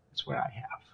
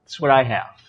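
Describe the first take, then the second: First: Very soft, low whisper; barely voiced, under the breath; hushed boast. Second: Said in the usual way. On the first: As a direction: drop it to a smug whisper. Boast repeated in a hush.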